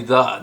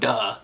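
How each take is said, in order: First: The word begins with a soft th sound. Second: The word begins with a hard d sound. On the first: The speaker calls it right. "I want to say the" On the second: The speaker calls it wrong. "not duh"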